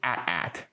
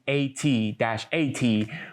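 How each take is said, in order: First: It is said as the word at, twice. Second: Each letter name is spelled out separately.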